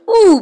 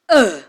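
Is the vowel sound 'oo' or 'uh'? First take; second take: oo; uh. First: The vowel is a rounded 'oo' sound. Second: The vowel is an unrounded 'uh' sound. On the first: This is the vowel as read in African vernacular languages. "So the oo becomes the uh" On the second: This is the vowel as used in English. "becomes the uh"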